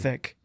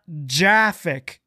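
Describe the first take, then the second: First: The word begins with a hard G sound. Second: The word begins with a soft J sound. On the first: The speaker calls it right. "graphic is with a G" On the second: The speaker calls it wrong. "It's not Jaffic"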